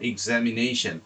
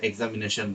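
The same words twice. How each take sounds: First: এক্সামিনেশন opening with an 'ig' sound; pronounced with i. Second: এক্সামিনেশন opening with an 'ek' sound; common local pronunciation. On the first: Teacher models how audio speakers say it, correct pronunciation. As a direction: say এক্সামিনেশন as 'ig-zam-i-NAY-shun'. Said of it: "এটার উচ্চারণ ই দিয়ে করতেছি". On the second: Teacher shows what we usually say, local pronunciation. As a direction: say এক্সামিনেশন as 'ek-za-mi-NE-shon'. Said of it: "ওইটাকে আমরা সাধারণত এক্সামিনেশন বলি". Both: Shown as a demonstration.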